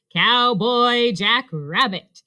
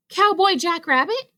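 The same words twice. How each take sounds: First: Slow, spaced-out naming; deliberate, drawn-out answer; measured announcement. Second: High, thrilled question; high-pitched amazement; excited cry. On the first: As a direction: announce each word slowly. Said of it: "answered Robot". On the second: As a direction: cry it out in delighted surprise. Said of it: "cried Rabbit". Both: A narrator's reading.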